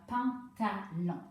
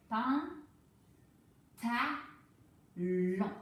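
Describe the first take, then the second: First: «pantalon» stretched slowly as one joined word; blended slowly. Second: «Pan», «ta», «long» said as three separate loud syllables. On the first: Teacher to pupil, blending the syllables into «pantalon». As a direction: glue «pantalon» back together slowly. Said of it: "je colle le morceau plus rapidement". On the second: Teacher to pupil, sounding out «Pan», «ta», «long» in chunks. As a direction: chop «pantalon» into «Pan», «ta», «long». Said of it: "découpé plusieurs fois comme ça". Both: Shown as a demonstration.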